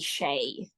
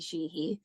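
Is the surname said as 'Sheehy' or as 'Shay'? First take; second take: Shay; Sheehy. First: The surname is said as 'Shay'. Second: The surname is said as 'Sheehy'. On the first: It is the Irish version the other side uses. "the Irish pronunciation would be Shay" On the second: It is the version one side of the family uses. "if I would say Rosie Sheehy"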